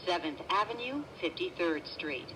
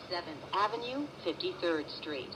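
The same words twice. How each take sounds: The two takes are said the same way.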